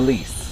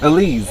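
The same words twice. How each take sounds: First: The name is said with a hissing S sound. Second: The name is said with a buzzing Z sound. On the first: The speaker calls it wrong. "it was more like an S" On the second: The speaker calls it right. "It's Elise"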